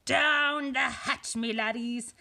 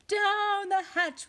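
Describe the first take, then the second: First: Long, loud mealtime bellow; pirate yell. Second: Higher, drawn-out echoing shout; crew shouting. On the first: Captain Braidbeard calls crew to eat, yelling. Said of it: "pounded his fist on the table and yelled". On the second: Crew answers captain at dinner, high shouting. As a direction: shout it back high and loud. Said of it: "we all shouted". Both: A narrator's reading.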